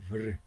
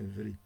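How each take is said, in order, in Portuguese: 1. O r é pronunciado sem uma vogal i depois. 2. O r é seguido por uma vogal i clara. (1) "é vr" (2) "Não é vri"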